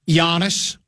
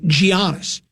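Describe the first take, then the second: First: The name begins with a Y sound. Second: The name begins with a hard G sound. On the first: The speaker calls it right. "which is how you pronounce it" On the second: The speaker calls it wrong. "Why they're using a G"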